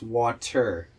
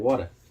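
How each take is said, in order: First: The word is said carefully, with deliberate effort. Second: The word is said casually, in a relaxed way. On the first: "But when I pronounce it's" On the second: "When I when I usually say it"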